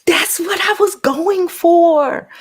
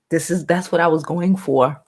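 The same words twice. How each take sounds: First: High, slow, airy new voice put on for the chat. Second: Said in the usual way. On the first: Showing off her new voice to the livestream chat, high and slow. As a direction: glide up high and stretch it out. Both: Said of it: "New voice".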